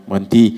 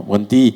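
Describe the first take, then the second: The two takes are said the same way.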